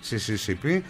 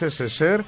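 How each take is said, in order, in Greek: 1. Τα γράμματα διαβάζονται με τα αγγλικά ονόματα των γραμμάτων. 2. Τα γράμματα διαβάζονται με τους ρωσικούς ήχους των γραμμάτων. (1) "λέμε με αγγλικούς χαρακτήρες" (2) "και είναι SSSR διότι είναι Soyuz"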